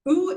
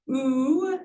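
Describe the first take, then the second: First: Short "oo" at the lips; short vowel. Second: Long, held "oo"; long vowel. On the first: Teacher showing Sanskrit vowels, short "oo". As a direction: say "oo" briefly. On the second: Teacher showing Sanskrit vowels, long "oo". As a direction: stretch out the "oo". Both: Shown as a demonstration.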